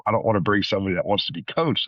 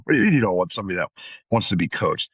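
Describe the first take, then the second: First: Said in the usual way. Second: Quick, disbelieving echo of the remark; incredulous inner voice. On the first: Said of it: "one in particular comment that was once made". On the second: Retold or imitated. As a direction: rush it out like you can't believe what you heard. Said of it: "I kinda thought to myself".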